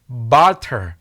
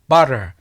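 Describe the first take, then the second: First: The middle t is a clear t sound. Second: The middle t is a soft rolled flap.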